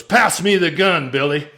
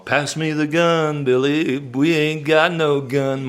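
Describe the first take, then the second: First: Raised, clipped order to Billy; tough cowboy demand. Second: Drawn-out song-hook delivery; slow punchline. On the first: Retold or imitated. Brother orders Billy to pass the gun, raised tough cowboy demand. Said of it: "a phrase comes into your life that you never forget". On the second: Shown as a demonstration. Teller sets up his song's punchline, drawn out slowly. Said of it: "it's all gonna be in the song".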